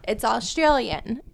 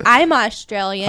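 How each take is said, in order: First: "Australian" carries the weight, quieter; retold reply with the emphasis on "Australian"; stress on Australian. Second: "I'm" carries the weight; retold claim with the emphasis on "I'm"; stress on I'm. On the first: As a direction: lean on "Australian", letting "It's" slip by. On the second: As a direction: lean on "I'm" as a claim about oneself. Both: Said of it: "She wasn't like".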